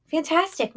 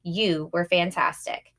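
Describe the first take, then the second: First: High, choked-up repeat; emotional echo. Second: Said in the usual way. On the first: A narrator's reading. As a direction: echo the praise, overwhelmed. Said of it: "so emotional she could barely talk".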